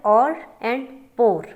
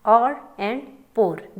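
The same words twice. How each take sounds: First: Said in the usual way. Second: Or and pour spoken very slowly, word by word; teacher slows right down on or and pour; slow deliberate read. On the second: Shown as a demonstration. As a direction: spell out or and pour slowly so the class hears the difference. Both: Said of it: "देखें अब difference है ना".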